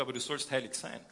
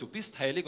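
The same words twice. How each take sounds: First: "heilig" weighted with a falling close; stress on sollst heilig. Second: "bist" hit louder and rising; stress on bist. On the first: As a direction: set "sollst heilig sein" apart as a command. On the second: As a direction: lean hard on "bist" as a fact. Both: Acted. Contrasting God's two statements.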